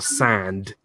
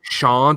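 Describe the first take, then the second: First: It starts with an 's' sound. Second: It starts with a 'sh' sound. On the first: The speaker calls it right. "It's sand" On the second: The speaker calls it wrong. "Is it shand"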